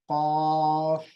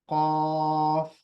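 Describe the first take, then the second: First: The first sound is made at the back. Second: The same.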